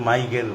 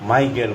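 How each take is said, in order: No difference in how they are said.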